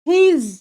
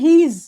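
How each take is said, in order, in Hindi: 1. यह एक संक्षिप्त एक-अक्षर वाले रूप में बोला जाता है। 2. यह एक संक्षिप्त एक-अक्षर वाले रूप में बोला जाता है।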